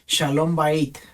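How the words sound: The last word ends with a t sound. "debería decir ahí Shalom Bait, con terminar con T"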